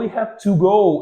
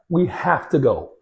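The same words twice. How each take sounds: First: Each word is said fully and separately. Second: The words run together with "have to" reduced. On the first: The speaker calls it wrong. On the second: The speaker calls it right.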